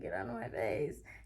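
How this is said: It is said softly and mildly.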